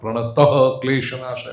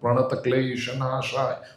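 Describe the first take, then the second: First: An extra 'ha' sound follows the first word. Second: No extra 'ha' sound follows the first word. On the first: The speaker calls it wrong. "Not Pranataha Klesha Nashaya" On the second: The speaker calls it right. "One word, without a pause in between"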